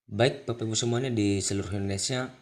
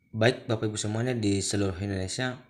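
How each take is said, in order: Both takes have the same delivery.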